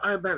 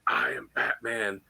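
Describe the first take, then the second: First: Said in the usual way. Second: Low, slow gravelly-free growl of the Dark Knight; Batman voice. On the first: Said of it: "Do it". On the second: Retold or imitated. Actor doing the Batman line for a fan, low and slow. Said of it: "Do it again".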